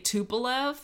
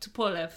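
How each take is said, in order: First: It is said with a drawn-out Southern American accent. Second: It is said short and clipped, without the drawl. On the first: The speaker calls it wrong. "that's the southern way to say it" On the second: The speaker calls it right. "so Tupolev"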